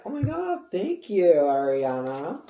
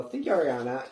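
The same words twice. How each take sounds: First: High squeal then loud thank you; high starstruck gratitude, drawn out at the end; excited thanks. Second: Said in the usual way. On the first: Retold or imitated. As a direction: gush thanks to a star. [name] hands over chihuahua.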